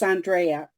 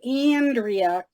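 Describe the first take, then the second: First: The name is said with a Latin American pronunciation. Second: The name is said with a Midwestern American pronunciation. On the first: This is how Latin American speakers say it. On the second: This is how people from the Midwest say it. "I say Andrea because I'm originally from the Midwest"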